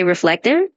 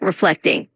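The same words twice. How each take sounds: First: Said in the usual way. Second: Reflecting with the middle "flec" leaned on; stress on middle syllable. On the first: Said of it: "When you say reflective". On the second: Shown as a demonstration. Tutor modelling reflecting for Brian, middle syllable stressed. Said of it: "just emphasize that middle part a little bit".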